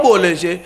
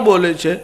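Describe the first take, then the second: Both takes have the same delivery.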